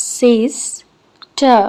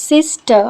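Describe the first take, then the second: First: "sister" very slowly broken in two, long pause between the syllables; split into syllables. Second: Said in the usual way. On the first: Shown as a demonstration. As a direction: draw out the first half of "sister", pause, then the last syllable. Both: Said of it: "രണ്ട് syllable ഉണ്ട്".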